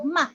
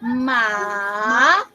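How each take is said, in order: First: The syllable is light, short and unstressed. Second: The pitch dips down and then rises. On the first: "light lang and then dili kay siya kusog" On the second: "the downward and upward motion of your voice"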